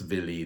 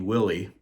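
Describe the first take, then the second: First: The name begins with a V sound. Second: The name begins with a W sound.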